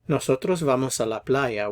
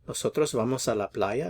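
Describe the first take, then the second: First: The voice falls at the end. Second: The voice rises at the end. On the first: It states a fact. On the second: It asks a yes or no question.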